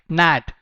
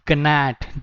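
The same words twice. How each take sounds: First: The g at the start is silent. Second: The g at the start is pronounced. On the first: The speaker calls it right. "G is silent over here. You have to speak it like gnat" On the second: The speaker calls it wrong. "This is not gnat"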